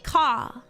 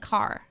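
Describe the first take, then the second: First: The final R sound is dropped. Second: The final R sound is clearly pronounced. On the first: "but I say ka" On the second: "Clearly pronouncing R's like car"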